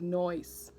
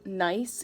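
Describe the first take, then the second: First: Attempted New York accent on NOISE, "nice" said as "noyce"; New York-style NOISE, vowel turned to "oy". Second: Said in the usual way. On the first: Shown as a demonstration. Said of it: "in a New York accent".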